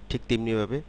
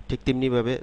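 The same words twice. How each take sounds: The two takes are said the same way.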